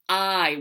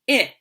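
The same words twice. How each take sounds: First: The vowel is the long sound, like 'eye'. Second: The vowel is the short sound, like 'ih'. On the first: "the long vowel sound" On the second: "short vowel first"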